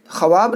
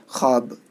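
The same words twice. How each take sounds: First: ख्वाब said as khuh-waab, with the waw sounded; wrong pronunciation. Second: ख्वाब said as khaab, waw silent; ख्वाब with kh straight into a long aa; correct pronunciation. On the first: Teacher showing students the mistake in reading ख्वाब. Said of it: "ख्वाब नहीं पढ़ना है". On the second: Teacher giving students the right reading of ख्वाब. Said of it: "direct खा को अलिफ के साथ मिलाते हैं". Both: Shown as a demonstration.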